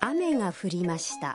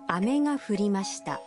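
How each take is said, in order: First: Ame carries the pitch pattern meaning rain. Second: Ame carries the pitch pattern meaning candy. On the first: Rain fell. "কথাটির অর্থ বৃষ্টি পড়েছে" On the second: Candy fell. "এই একই উচ্চারণের শব্দ যদি ভিন্ন সুরে বলা হয়"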